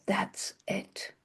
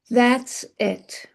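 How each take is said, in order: First: Breathless whisper of a sudden idea. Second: Said in the usual way. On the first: Acted. Wife whispering to herself at sunrise, a hushed whisper. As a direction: breathe it like a secret.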